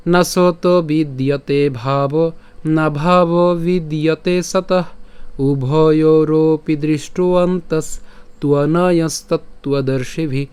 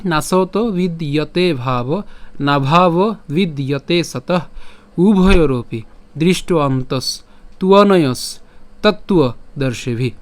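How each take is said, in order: First: Slow Sanskrit verse chant; unhurried shloka singing, sustained notes; melodic chanting. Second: Slow, measured spoken verse, not sung; careful Sanskrit reading for learners, syllables clear; spoken recitation. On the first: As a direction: chant it to a tune with long held syllables. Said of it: "যদি সুর করে পাঠ করি". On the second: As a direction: recite phrase by phrase with falling endings. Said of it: "তাহলে আমি আবার বলি". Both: Shown as a demonstration.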